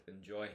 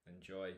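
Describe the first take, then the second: No difference in how they are said.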